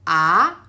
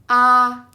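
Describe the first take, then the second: First: The pitch rises toward the end. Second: The pitch stays level and smooth. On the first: "a stick that towards upper right direction" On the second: "It's flat and smooth"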